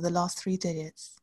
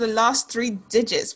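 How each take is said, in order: First: It is said in a British accent. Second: It is said in an American accent. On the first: "Should I do my UK voice?" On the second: "Why did you become American for the intro?"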